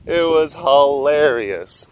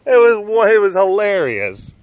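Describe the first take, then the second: First: "hilarious" drawn out slowly; slow, deliberate "It was hilarious"; slow emphasis. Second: High-pitched, tickled remark; delighted, pitched up; amused exclamation. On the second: Retelling a funny film moment. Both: Real, not acted.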